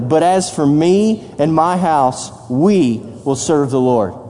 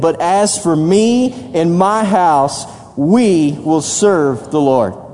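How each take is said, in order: First: It is said calmly, without extra energy. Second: It is said with gusto and emphatic energy.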